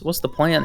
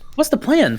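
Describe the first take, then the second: First: The question sounds sharp and accusing. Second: The question sounds warm and friendly. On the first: The listener is under suspicion. The speaker calls it wrong. "I said that in an accusatory way" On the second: The question is a friendly inquiry. The speaker calls it right. "That was not meant to be a, an accusatory way"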